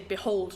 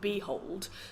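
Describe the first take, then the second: First: The stress is on the second syllable. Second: The stress is on the first syllable. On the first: The speaker calls it right. "the more stressed, isn't it? You say behold" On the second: The speaker calls it wrong. "not behold"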